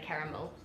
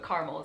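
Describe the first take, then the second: First: "caramel" as "KA-ruh-mil"; New Zealand "KA-ruh-mil" for "caramel"; three-syllable caramel. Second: "caramel" as "CAR-mul", middle vowel dropped; two-syllable caramel. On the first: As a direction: say "caramel" with short first vowel and all three syllables. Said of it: "we'd just say caramel". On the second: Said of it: "is how I normally would say". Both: Shown as a demonstration.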